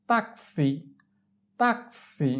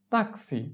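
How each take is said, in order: First: Slow, separated "tak-si" in "taxi"; drawn-out model. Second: Said in the usual way. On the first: Shown as a demonstration. Teacher models taxi for learners, drawn out. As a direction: split "taxi" into two long syllables.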